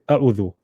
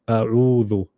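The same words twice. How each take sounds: First: The vowel is short, with no lengthening. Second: The vowel is lengthened a medium amount. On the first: The speaker calls it wrong. "we won't ignore it and say" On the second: The speaker calls it right. "we'll say"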